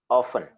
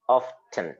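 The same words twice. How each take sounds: First: The T sound is silent. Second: The T sound is clearly pronounced. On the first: It is how the word is normally said. "the T is silent. So normally you will say often" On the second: It shows that the word contains a T. "I deliberately pronounced it often so that you know that there is a T there"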